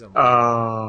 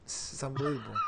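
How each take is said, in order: First: Louder exasperated exclaim; loud disbelief. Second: Softer, muttered repeat; quiet disbelief. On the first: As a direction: blurt out in disbelief. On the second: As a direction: say it to yourself, deflated. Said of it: "Okay, this is unbelievable". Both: Real, not acted.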